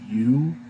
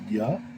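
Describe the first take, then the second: First: The vowel is a long 'oo' sound. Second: The vowel is a short 'uh' sound. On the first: "pronounces it like the Shurik, so he'd probably say you" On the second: "that uh, shorter U sound, so I say ya"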